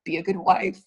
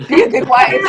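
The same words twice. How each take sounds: First: Said in the usual way. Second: Much louder, higher, breaking into a laugh; laughing self-reminder. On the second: Retold or imitated. Wife reminds herself to listen to her husband, loud laughing. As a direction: scold yourself to behave, laughing through it.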